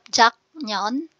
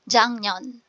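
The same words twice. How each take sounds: First: The first syllable ends in a plain k sound. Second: The first syllable ends in a nasal ng sound. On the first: The speaker calls it wrong. "instead of 작년" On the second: The speaker calls it right. "Ang magiging sound ay iyeng"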